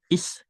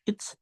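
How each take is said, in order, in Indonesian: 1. Tidak ada bunyi t yang terdengar sebelum s. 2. Bunyi t terdengar sebelum s. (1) "tapi is saja ya, jadi T-nya melebur" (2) "Ini dibacanya bukan it's"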